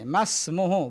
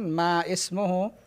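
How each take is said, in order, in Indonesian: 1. Kedua kata itu disambung menjadi satu. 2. Kedua kata itu diucapkan sebagai kata yang terpisah. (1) "masmuhu bukan ma ismuhu" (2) "bukan ma ismuhu"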